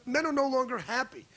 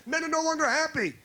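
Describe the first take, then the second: First: Said in the usual way. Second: Longer stressed, higher, falling at the end; emphatic repeat. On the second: Shown as a demonstration. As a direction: lean hard on "longer" second time round.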